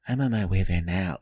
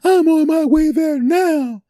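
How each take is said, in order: First: It sounds calm and inviting. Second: It sounds upset and tense.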